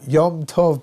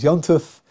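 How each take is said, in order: First: Two words are said fully and separately. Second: The words are blended into one short word.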